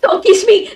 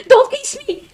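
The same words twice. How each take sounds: First: Loud, high yell of protest; frantic shout at the game. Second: Higher, loud shriek of protest; panicked high shriek. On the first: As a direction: yell it at the screen. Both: Real, not acted. Yelling at game character.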